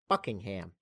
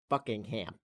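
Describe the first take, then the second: First: It is said in a North American accent. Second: It is said in a North American accent.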